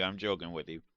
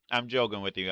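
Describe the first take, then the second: First: Softer and lower, reassuring; quiet. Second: Said in the usual way. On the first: Real, not acted. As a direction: say it gently, backing off.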